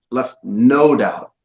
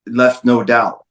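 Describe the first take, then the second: First: NO drawn out slowly in "left no doubt"; slow, emphatic repeat with a stretched NO; stress on NO. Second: Said in the usual way. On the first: Real, not acted. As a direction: lean long and firmly on the word NO.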